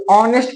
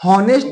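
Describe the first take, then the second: First: ऑनेस्ट said "aw-nest", starting straight on the vowel; ऑनेस्ट with no h, the correct way; silent h. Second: हॉनेस्ट said with a clear h sound at the start; हॉनेस्ट with the h spoken, the way learners get it wrong; wrong pronunciation with h. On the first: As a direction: drop the h in ऑनेस्ट and open on "aw". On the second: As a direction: say हॉनेस्ट as "haw-nest", voicing the h. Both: Shown as a demonstration. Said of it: "इसे हॉनेस्ट नहीं पढ़ते".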